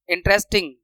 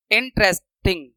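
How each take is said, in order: First: Said in the usual way. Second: interesting in separate chunks, इन, trace, टिंग; broken into syllables. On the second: Shown as a demonstration. Teacher demonstrating syllables, interesting broken into parts. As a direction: break interesting up with pauses. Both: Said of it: "यहाँ पे दो syllable आ रहे हैं".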